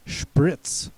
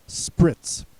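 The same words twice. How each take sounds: First: "Spritz" with an initial sh sound, as shprits; "Spritz" opening on a hushing sh; German-style Spritz. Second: "spritz" with a plain s, as sprits; "spritz" opening on s, not sh; alternative pronunciation. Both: Shown as a demonstration. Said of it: "also pronounced spritz".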